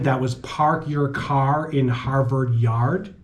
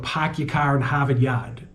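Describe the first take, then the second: First: It is said in a standard American accent. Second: It is said in a Boston accent.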